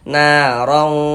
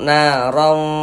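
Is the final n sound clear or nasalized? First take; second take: nasalized; nasalized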